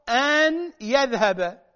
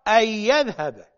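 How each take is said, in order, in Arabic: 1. يُنطق صوت النون منفصلاً. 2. يُدغم صوت النون في الياء التي تليه.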